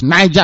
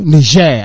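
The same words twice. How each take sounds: First: The name is pronounced the English way. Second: The name is pronounced the French way. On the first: "according to the English" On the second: "according to the French"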